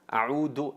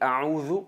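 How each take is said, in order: First: The middle consonant is a plain 'd' sound. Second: The middle consonant is a soft 'dh' sound. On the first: It means to return. The speaker calls it wrong. "a'udhu en árabe es volver o regresar" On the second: It means I seek refuge. The speaker calls it right. "y a'udhu me, me refugio"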